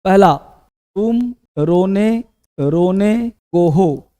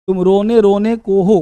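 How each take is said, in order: First: Slow dictation. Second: Said in the usual way. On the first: Shown as a demonstration. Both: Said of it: "पहला example".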